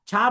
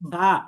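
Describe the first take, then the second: First: It starts with a harsh, breathy ch-like sound. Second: It starts with a soft lisped sound at the teeth. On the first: The speaker calls it wrong. "ছা বলা যাবে না" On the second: The speaker calls it right. "নরম ভাবে সা"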